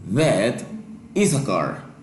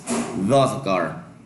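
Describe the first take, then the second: First: That and is are said as separate words. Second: That and is are joined into one word.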